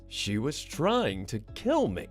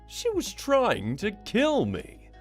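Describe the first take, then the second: First: It is said with low intensity. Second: It is said with high intensity.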